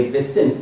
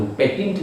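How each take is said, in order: First: पेशेंट said with sh, pe-shent, the right way; correct sh sound. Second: पेटेंट said with a hard t, the wrong way; wrong t sound. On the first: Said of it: "पेशेंट पढ़ेंगे इसको". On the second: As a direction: show the mistaken पेटेंट with a t. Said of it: "ता नहीं, पेटेंट नहीं पढ़ेंगे". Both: Shown as a demonstration.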